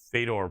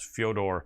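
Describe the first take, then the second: First: The name starts with a plain 'feh' sound. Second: The name starts with a 'fyo' sound. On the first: "pronounced normal" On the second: "his name in Russian pronounced"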